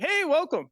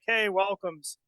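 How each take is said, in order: First: The greeting sounds warm and bubbly. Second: The greeting sounds reluctant and grudging.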